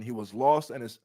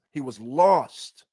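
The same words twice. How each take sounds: First: Said in the usual way. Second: Slow, loud he was lost with lost leaned on hard; stress on lost. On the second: Shown as a demonstration. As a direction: drag out he was lost and hit lost.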